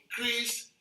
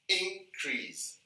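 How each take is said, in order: First: The stress is on the second syllable. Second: The stress is on the first syllable. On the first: It is used as a verb. "we put the stress in the second syllable throughout. Whenever two uh, syllabic words are used as verb" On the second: It is used as a noun. "we'll put the stress in the first syllable when two syllabic words are used as nouns"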